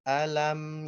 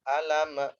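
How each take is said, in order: First: The m is held and flows out smoothly. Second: The m bounces with an added vowel after it. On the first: The speaker calls it right. "Dialirkan, rasain sedikit ngalir huruf mimnya" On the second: The speaker calls it wrong. "Jangan alama ya alama lama lama lama lama"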